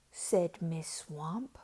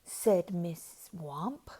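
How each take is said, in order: Both takes have the same delivery.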